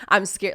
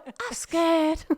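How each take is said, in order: First: Said in the usual way. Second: Put-on very high, drawn-out little-kid voice; imitating a child's catchphrase. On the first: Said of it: "if I was just like". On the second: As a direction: stretch it out slowly in a tiny child's pitch. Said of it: "one of them particularly always goes".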